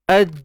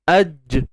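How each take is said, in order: First: The final j is held without release. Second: The final j is released with a bounce. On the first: "kalau kita naikkan tengah lidah" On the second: "Bila kita release dia, lepaskan dia"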